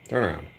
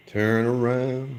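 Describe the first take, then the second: First: Said in the usual way. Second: "Turn around" stretched slowly, louder, with "around" long and pleading; drawn-out plea. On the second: Real, not acted. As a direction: coax the bottle slowly, dragging out "around".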